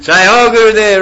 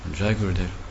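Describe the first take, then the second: First: It is said warmly and joyfully, like greeting a friend. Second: It is said stiffly, with fear and obligation.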